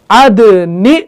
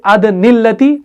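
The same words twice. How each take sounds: First: अदनि with the nun carrying kasra, ending open on नि; correct reading. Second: अदनिल्लती with the nun kept as अदनि-ल्लती, the wrong way; wrong reading. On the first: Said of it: "जेर में तब्दील". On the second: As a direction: read अदनिल्लती joined straight through, as a mistake. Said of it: "हम नहीं पढ़ सकते". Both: Shown as a demonstration.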